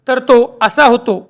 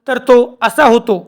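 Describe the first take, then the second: No difference in how they are said.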